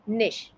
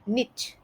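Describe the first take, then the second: First: The word ends with an 'sh' sound. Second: The word ends with a 'ch' sound. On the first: The speaker calls it right. "But इसका सही उच्चारण इस तरीके से है" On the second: The speaker calls it wrong. "निश का गलत उच्चारण कुछ इस तरीके से सुनाई देता है"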